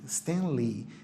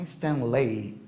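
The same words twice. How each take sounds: First: The final vowel is a long 'ee'. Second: The final vowel sounds like 'ay'. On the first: The speaker calls it right. "palavra terminada em E Y é um I longo" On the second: The speaker calls it wrong. "Não é Stanley"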